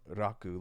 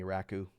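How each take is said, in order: First: The first vowel sounds like in 'rock'. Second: The first vowel sounds like in 'rack'. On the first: The speaker calls it right. "My name is pronounced Raku, like ... rock" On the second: The speaker calls it wrong. "She kept calling me Raku. It's not like a rack"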